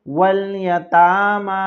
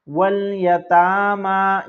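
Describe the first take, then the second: The two takes are said the same way.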